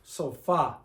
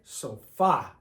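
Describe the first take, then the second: First: The stress is on the last syllable. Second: The stress is on the last syllable.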